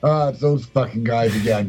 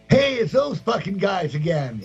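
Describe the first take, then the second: First: It sounds annoyed and fed up. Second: It sounds excited and welcoming.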